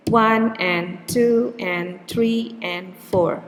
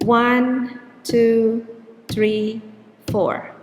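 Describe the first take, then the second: First: Slow, with numbers on the beat and "and" squeezed in; "one and two and three and four" with one, two, three and four stressed and "and" short and weak; rhythmic beat demo. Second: "one, two, three, four" each number stressed as a steady beat; counting on the beat. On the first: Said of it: "So see the beat, the beats are still four". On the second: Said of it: "the stressed syllable will be on the beat". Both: Shown as a demonstration.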